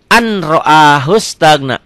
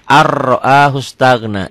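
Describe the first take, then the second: First: Slow "an ro'ahu" with a clear N; N as written. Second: Slow "ar ro'ahu" on a long rolled R; read with merged R. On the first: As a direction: spell out "an" before "ro'ahu", N sounded. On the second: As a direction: turn the N into R in "ar ro'ahu". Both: Shown as a demonstration.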